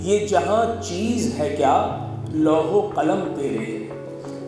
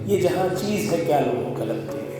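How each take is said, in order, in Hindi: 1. आखिरी शब्द पूरी तरह और साफ़ बोले गए हैं। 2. आखिरी शब्द धीरे-धीरे मद्धम होकर निगल लिए जाते हैं। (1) "अब ये तो मैंने शेर पढ़ दिया" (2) "अगर इसकी तेल को मार दिया जाए"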